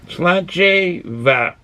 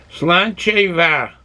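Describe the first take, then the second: First: Sláinte va stretched syllable by syllable; very slow sláinte va. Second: Sláinte va spelled out slowly, SLAHN-cha va. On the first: Practising the toast for viewers, very slowly. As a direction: drag out Sláinte va deliberately. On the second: Teaching viewers a toast, sounded out slowly. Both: Shown as a demonstration. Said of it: "Pronouncing it as".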